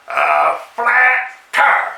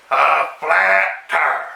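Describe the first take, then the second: First: Slow, higher drawn-out flat tire; slow exasperated repeat; slow higher drawl. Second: Slow, drawn-out deadpan flat tire; a slow weary groan of bad news. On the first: Acted. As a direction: stretch it out, voice lifted. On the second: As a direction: drag it out, deadpan. Deadpan repeat of bad luck.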